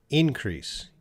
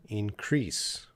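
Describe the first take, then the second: First: Increase said INcrease, first syllable higher and louder; INcrease as the noun, front-stressed. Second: Increase said inCREASE, weight on CREASE; inCREASE as the verb, end-stressed; stress on second syllable. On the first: Teacher showing the noun INcrease to a student. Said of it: "put a little bit power on the first syllable". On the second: Teacher showing the verb inCREASE to a student. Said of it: "or the second syllable". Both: Shown as a demonstration.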